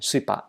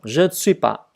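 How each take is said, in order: First: Both je and ne are dropped. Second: All four words are said, including ne. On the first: This is an even shorter casual form. "Suis pas thì bỏ je luôn" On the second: This is the careful form for study. "Đọc từ từ rõ ra"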